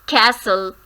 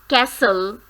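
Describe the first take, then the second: The two takes are said the same way.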